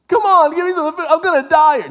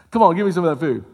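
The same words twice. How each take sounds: First: Much higher and louder, fast frantic begging; desperate Esau. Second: A touch louder, mildly begging; pleading Esau. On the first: Esau begging his brother for the soup, in a high, loud, fast frantic plea. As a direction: beg for the food as if starving. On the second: Esau asking his brother for the soup, in a mildly pleading voice. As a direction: ask for the food half-heartedly. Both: Acted.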